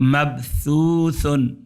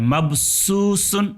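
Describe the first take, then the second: First: The middle consonant sounds like a soft th. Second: The middle consonant sounds like a plain s. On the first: The speaker calls it right. "ये सा है।" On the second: The speaker calls it wrong. "ये गलत है"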